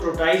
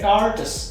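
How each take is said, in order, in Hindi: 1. यह दक्षिण एशियाई उच्चारण में कहा गया है। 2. यह अंग्रेज़ी मूल-भाषी उच्चारण में कहा गया है। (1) "तो टोर्टाइज है ही नहीं है" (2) "वो है टार्टस"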